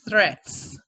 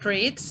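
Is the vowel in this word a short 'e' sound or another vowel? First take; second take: short e; another vowel. First: The vowel is a short 'e' sound. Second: The vowel is not a short 'e' sound. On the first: The speaker calls it right. "it's with sound E" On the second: The speaker calls it wrong. "It's not threats"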